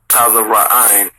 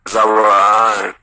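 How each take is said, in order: First: The word starts with an added 'ta' syllable. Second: The word starts directly with a 'z' sound. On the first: The speaker calls it wrong. "No, not Taza" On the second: The speaker calls it right. "That's Za. ... That's it"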